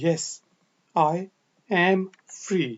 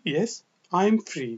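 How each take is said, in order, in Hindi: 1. 'I am' पूरा, दो शब्दों की तरह बोला जाता है। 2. 'I am' छोटा होकर 'I'm' बोला जाता है। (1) "पूरा जुमला कहते हैं" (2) "आई एम को शॉर्ट करके आई एम"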